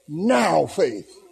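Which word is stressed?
now. The stress falls on the word now. The focus is on faith in the present moment. "Now faith, not the faith of the past, not the faith of the future"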